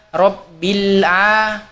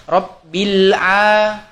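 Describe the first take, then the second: Both takes have the same delivery.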